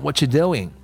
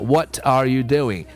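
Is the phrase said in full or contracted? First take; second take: contracted; full. First: The words run together and "are" drops out. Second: Every word is said fully and separately. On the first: "我们把它缩略一下的话，会读成什么感觉呢？……它会读成" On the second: "单个字读当然没有问题了"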